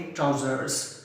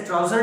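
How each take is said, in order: First: ट्राउजर्स ending in an s sound; ट्राउजर्स, final s clearly added; form with final S. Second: ट्राउजर ending on r, no final s; ट्राउजर with the final s left off; wrong form without S. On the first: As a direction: say ट्राउजर्स with the closing s. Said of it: "इसे बोलेंगे". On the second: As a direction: say ट्राउजर without the closing s sound. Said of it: "नहीं बोलेंगे". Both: Shown as a demonstration.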